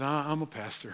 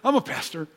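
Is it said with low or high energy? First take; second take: low; high. First: It is said hesitantly with low energy. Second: It is said brightly with more energy.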